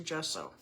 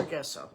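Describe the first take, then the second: First: "gesso" with a soft g, like "jesso"; soft g pronunciation. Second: "gesso" with a hard g, as in guess; hard g pronunciation. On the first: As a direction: start "gesso" with a j sound. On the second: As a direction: start "gesso" like the word guess. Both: Shown as a demonstration. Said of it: "I always say it wrong".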